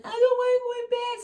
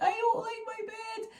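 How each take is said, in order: First: Put-on high, loud, slow little-girl protest; toddler whine. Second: Put-on high, slow little-girl complaint; toddler whine. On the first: Toddler protesting to mum at bedtime, in a high slow whine. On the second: Toddler grumbling to mum about her bed, in a high slow whine. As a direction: sulk it like a small child.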